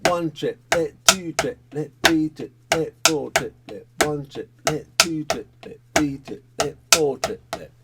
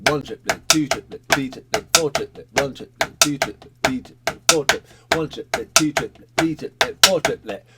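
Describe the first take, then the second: First: Rhythmic chant with space between the syllables; slower triplet counting. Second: Rhythmic chant, each number leading its triplet; brisk triplet counting. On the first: Drum teacher repeating the pattern a bit slow, slower triplet counting. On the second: Drum teacher counting along with the pattern, brisk triplet counting. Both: Shown as a demonstration. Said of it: "Do a bit slow".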